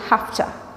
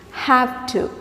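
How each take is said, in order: First: The words are blended into a reduced hafta. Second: Both words are pronounced fully and separately. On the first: "you can say have to. H A F T A" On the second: "instead of saying like that"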